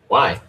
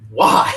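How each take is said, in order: First: It sounds angry and annoyed. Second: It sounds curious and friendly.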